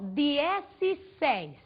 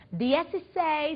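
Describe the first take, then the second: First: The word is said slowly, like two parts. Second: The word is said quickly, as one unit. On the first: "É como se eu estivesse falando os dois, dez e seis em espanhol" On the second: "Só que a gente vai falar um pouquinho mais rapidinho"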